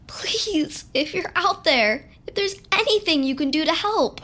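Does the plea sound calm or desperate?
desperate. The plea sounds strongly desperate and pleading.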